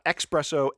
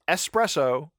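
First: An extra k sound comes before the s. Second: The s comes with no k sound before it. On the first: The speaker calls it wrong. "It's not espresso" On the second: The speaker calls it right. "It's espresso"

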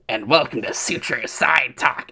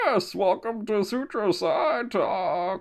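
First: It is said in a Scream Ghostface voice. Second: It is said in a Bane impression.

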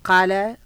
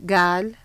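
First: The word begins with a deep throat Q sound. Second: The word begins with a hard G sound. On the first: "our qaf is pronounced as a ga sound" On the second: "becomes gal"

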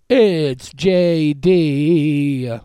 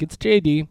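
First: It is said in a showy, characterful way. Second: It is said in a plain, normal way.

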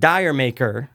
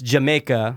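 First: It is said as two words, dire maker. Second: It is said like the word Jamaica. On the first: The speaker calls it wrong. "It's almost like Dire Maker" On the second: The speaker calls it right. "It's Jamaica, okay? That's the name of the song"

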